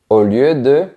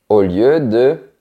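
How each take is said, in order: The two takes are said the same way.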